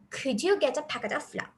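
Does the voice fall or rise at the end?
rises. The voice rises at the end of the phrase. It is a question expecting an answer. The speaker calls it right. "if you raise your voice at the latter part of the sentence"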